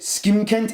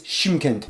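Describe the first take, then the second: First: The name begins with an 'sk' sound. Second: The name begins with an 'sh' sound. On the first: The speaker calls it wrong. "I accidentally pronounced it Skimkent" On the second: The speaker calls it right. "it's Shymkent"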